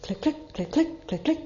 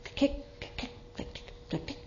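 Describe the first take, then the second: First: Higher, voiced clicks rising at each pair; nearer clicking. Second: Soft, unvoiced clicks, far down the road; distant clicking. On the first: Narrator voicing approaching hooves, nearer clicks. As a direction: let the clicks come closer and brighter. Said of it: "The sound seemed to come nearer". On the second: Narrator voicing hooves far off, soft distant clicks. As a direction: whisper the clicks as if heard from afar. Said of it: "he heard a sound far off". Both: A narrator's reading.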